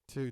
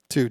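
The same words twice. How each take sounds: First: The voice sounds quieter, through the direct output. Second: The voice sounds louder, through the mix track. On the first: "Let me put it on the front" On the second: "it's going to be a little louder"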